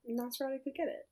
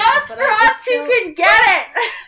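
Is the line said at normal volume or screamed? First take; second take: normal; screamed. First: It is said at a calm, normal volume. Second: It is screamed loudly with strong energy.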